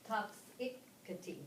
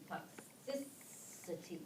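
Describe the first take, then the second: First: Slow TOXicity, weight on the first syllable TOX; stress on the first syllable. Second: Slow toXIcity, weight on the second syllable XI; stress on the second syllable. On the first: Teacher showing the wrong stress to tutors, slow and deliberate. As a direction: draw out toxicity with the accent on TOX. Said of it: "Is that how we say that?". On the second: Teacher showing tutors the shifted accent, slow and soft. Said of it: "accent on the second syllable". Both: Shown as a demonstration.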